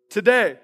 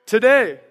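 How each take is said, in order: Both takes have the same delivery.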